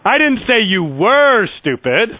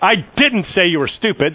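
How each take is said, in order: First: The stress falls on the word were. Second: The stress falls on the word didn't. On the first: The listener is stupid now. "I'm saying you are stupid" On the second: It was never said at all. "that's just an emphatic, no, I didn't say it"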